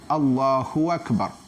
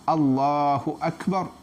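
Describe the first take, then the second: First: A 'w' sound links the two words. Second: The two words join without a 'w' sound. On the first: The original meaning is changed. The speaker calls it wrong. "huwak. Jadi sudah ada bunyi waw di tengah-tengah" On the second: God is the greatest. The speaker calls it right. "Yang kita kena sebut Allahu Akbar"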